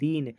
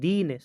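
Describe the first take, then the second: First: The word is said plainly without any stress. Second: The syllable dee is said with strong stress. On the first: "कोई बलाघात नहीं है" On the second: "दी वर्ण पर बलाघात"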